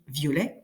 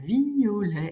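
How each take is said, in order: First: The two vowels are merged into one syllable. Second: The two vowels are split into separate syllables. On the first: "je peux dire comme d'habitude" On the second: "séparer en deux"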